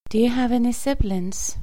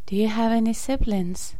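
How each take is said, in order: Both takes have the same delivery.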